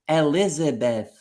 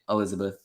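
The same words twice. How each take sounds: First: Every vowel is pronounced fully and clearly. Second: The unstressed vowels are reduced to schwa. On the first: The speaker calls it wrong. "you're not gonna say like Elizabeth" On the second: The speaker calls it right. "You're just gonna say Elizabeth"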